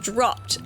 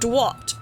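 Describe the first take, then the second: First: The r is pronounced as a clear r. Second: The r is softened into a w sound. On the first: The remaster's changed line. The speaker calls it wrong. "they changed that line from dwopped to dropped" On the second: A little girl with a lisp says it. The speaker calls it right. "It's a little girl with a little lisp"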